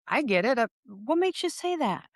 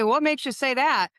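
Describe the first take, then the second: First: Curious, non-threatening question. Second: Higher, louder demanding question; sharp interrogating challenge. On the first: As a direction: ask it gently, tone rising up. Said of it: "Very curious". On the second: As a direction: pin them down like an interrogator. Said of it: "They're gonna go". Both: Shown as a demonstration.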